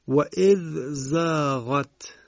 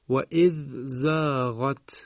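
No difference in how they are said.

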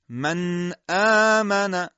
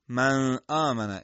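First: The n is held smoothly through the nose. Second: The n is clipped without nasal resonance. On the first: The speaker calls it right. "قشنگ باید زبان به مخرج نون بچسبه، صدا از بینی خارج بشه" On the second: The speaker calls it wrong. "این غلطه"

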